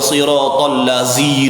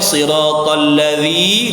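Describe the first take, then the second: First: The last word has a buzzing 'z' sound. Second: The last word has a soft 'dh' sound. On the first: The reader cannot correct the letter's articulation. The speaker calls it wrong. "dia tetap baca" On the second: This is the reading the person was asked to give. The speaker calls it right. "Orang suruh baca"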